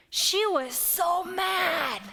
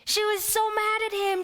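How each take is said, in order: First: She was so mad, drawn out slowly and hit hard; slow emphatic stress. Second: She was so mad at him, pitched up high in disbelief; high indignant She was so mad at him; higher outraged repeat. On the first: Emphasizing Mary's anger. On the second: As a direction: lift the voice high on so. Repeating Mary's anger, higher. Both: Acted.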